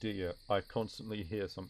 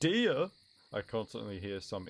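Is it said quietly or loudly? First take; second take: quietly; loudly. First: It is said more quietly. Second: It is said more loudly.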